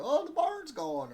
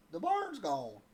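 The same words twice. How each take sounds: First: Much higher, much louder and slow, drawn-out mock wail; hammed-up country lady. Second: A little country twang, a bit higher and louder; country twang quote. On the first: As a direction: ham up the lady's line while fishing buddies laugh. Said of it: "look at each other and go". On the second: Retold or imitated. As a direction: say it like the lady from Arkansas, with a twang. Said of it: "she said".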